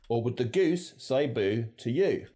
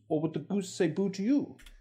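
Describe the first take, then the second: First: It is said in an Australian accent. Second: It is said in an RP accent.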